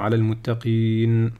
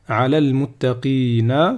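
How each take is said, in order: First: The last word ends on a bare consonant. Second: The last word ends on a short vowel. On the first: The reader stops here. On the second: The reading continues without a stop.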